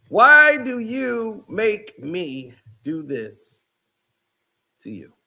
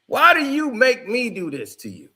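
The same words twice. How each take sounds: First: Slow, drawn-out, louder rebuke; slow emphatic. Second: Said in the usual way. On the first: Real, not acted. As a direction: stretch every word like a weary scold. Rebuke repeated slower.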